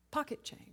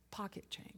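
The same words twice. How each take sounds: First: Said in the usual way. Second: "pocket change" breathed as a whisper, almost no voice; whispered punchline. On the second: Shown as a demonstration. Preacher to congregation, belittling the debt, whispering "pocket change". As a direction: drop "pocket change" to a hushed whisper for effect. Sermon punchline, repeated next line.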